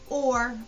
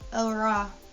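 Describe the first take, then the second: First: The chunk is said as one syllable. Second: The chunk is split into two syllables. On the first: The speaker calls it right. "I say st, or, m" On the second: The speaker calls it wrong. "I don't say ah, ah, or ora"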